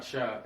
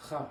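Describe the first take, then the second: First: "cha" said as shah; the mistaken "cha", like sh in shop; wrong sh sound. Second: "cha" said as khah; "cha" with Hebrew throat h, not sh; throaty CH. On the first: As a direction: give "cha" an English sh at the start. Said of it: "It's not cha". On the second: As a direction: breathe a kh from the throat to start "cha". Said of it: "it's cha". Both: Shown as a demonstration.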